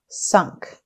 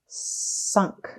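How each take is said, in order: First: The word is said quickly as one smooth unit. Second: The word is stretched out slowly, sound by sound. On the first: "Say it fast" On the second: "Tap and stretch"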